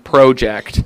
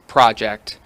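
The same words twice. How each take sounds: First: The word is said in a Canadian accent. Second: The word is said in a plain American accent.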